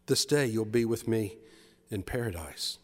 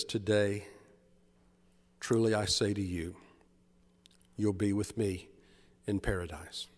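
First: Gentle promise. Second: Jesus answering tenderly, low and hushed; gentle promise. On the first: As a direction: repeat the promise tenderly. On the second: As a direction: lower and much softer, fading to almost nothing. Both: Acted. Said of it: "A gentle smile crosses his face".

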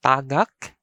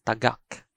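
First: Tagak with long TAA; TAA-gak; stress on first syllable. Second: Tagak with short TA, stressed GAK; stress on second syllable. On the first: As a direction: stretch the first vowel of Tagak. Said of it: "that is tagak for the verb". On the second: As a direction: clip the first vowel of tagak, hit the last. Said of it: "its alternative pronunciation is". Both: Shown as a demonstration.

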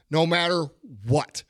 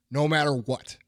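First: "No matter" then a pause before a punched "what"; stress on what. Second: Said in the usual way. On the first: Shown as a demonstration. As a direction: split it, land hard on "what".

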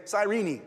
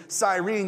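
First: "Cyrene" said as sy-REE-nee; three-syllable Cyrene. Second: "Cyrene" said as sy-REEN; two-syllable Cyrene. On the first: Preacher has everybody say it, "Cyrene" as sy-REE-nee. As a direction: sound the final e of "Cyrene" as ee. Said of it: "it's actually". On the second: Somebody says it the common way to you, "Cyrene" as sy-REEN. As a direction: drop the final ee from "Cyrene". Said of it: "every time somebody says to you". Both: Shown as a demonstration.

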